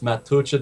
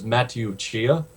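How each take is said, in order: First: The name sounds like one word, Matucha. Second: The name sounds like Matthew followed by Chia. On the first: The speaker calls it right. "So that's how it's pronounced" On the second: The speaker calls it wrong. "I mispronounced her name for about four or five years"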